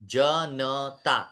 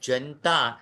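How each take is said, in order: First: The vowel after the n is fully sounded. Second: The vowel after the n is dropped. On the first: The speaker calls it right. "ये शुद्ध उच्चारण है। जनता न पूरा है" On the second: The speaker calls it wrong. "ये अयोग्य उच्चारण है"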